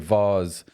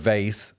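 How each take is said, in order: First: It is said with a British pronunciation. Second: It is said with an American pronunciation.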